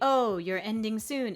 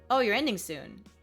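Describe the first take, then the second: First: It is said with a French rhythm. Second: It is said with a plain rhythm.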